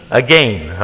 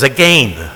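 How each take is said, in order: First: Said in the usual way. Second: "Again" with a long ay vowel, imitating Adrian Rogers; Canadian again. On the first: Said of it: "He can't pronounce it right". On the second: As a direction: say "Again" as "a-gayn", lightly mocking the Canadian preacher. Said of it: "He says".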